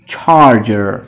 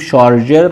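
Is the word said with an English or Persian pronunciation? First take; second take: English; Persian. First: It is said with an English pronunciation. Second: It is said with a Persian pronunciation. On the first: The speaker calls it right. "تلفظ انگلیسیش هست charger" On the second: The speaker calls it wrong. "فارسی میگیم charger"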